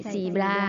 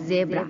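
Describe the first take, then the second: First: "zebra" said si-bla, with an s and an l; "zebra" as si-bla, the common Thai mistake; wrong Thai-style zebra. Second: "zebra" with a buzzing voiced z; "zebra" starting on a clear voiced z sound. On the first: Teacher shows students the wrong Thai way. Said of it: "ไม่ใช่". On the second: Teacher shows students the voiced z sound. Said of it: "เสียงก้องนะคะ". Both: Shown as a demonstration.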